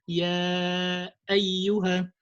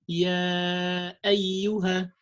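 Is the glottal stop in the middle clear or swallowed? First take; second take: clear; clear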